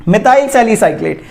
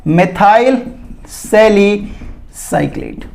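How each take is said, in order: First: Said in the usual way. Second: Methyl सैलिसाइक्लेट drawn out slowly, pause between the words; slow, broken-up naming. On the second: Shown as a demonstration. (methyl सैलिसाइक्लेट धीरे-धीरे, रुक-रुक कर) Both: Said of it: "उसका नाम है".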